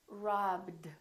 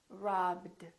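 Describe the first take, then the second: First: The ending is a short d sound. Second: The ending is a short d sound.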